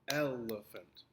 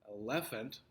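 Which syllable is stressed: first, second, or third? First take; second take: third; second. First: The stress is on the third syllable. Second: The stress is on the second syllable.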